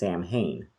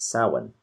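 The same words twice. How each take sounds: First: It is said in a common anglicized way. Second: It is said in the Gaelic way. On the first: The speaker calls it wrong. "what a lot of people say" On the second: The speaker calls it right. "it's actually Gaelic and it's pronounced"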